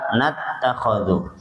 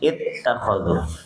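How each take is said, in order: First: The word starts with an n sound. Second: The word starts with an i sound. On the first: It is joined to the previous word. "Kalau nyambung maka nattakhadhu" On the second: Reading starts fresh after a stop. "kalau kita waqaf maka mulainya di ittakhadhu"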